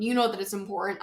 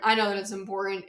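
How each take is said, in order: First: "You" pressed a little harder, rest of the line even; stress on you. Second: "I" pressed a little harder, rest of the line quick; stress on I. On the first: Podcast host to listeners, light stress on "You". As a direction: hit "You" to tell the listener the point is already theirs. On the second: Podcast host agreeing with listeners, light stress on "I", quick. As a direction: tap "I" to agree along with them. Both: Shown as a demonstration. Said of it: "contrast between you and I".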